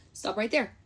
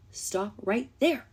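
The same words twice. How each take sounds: First: Said in the usual way. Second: Slow emphatic stop. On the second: Shown as a demonstration. To the ex through the camera, slow firm stop. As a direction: drag each word out slowly.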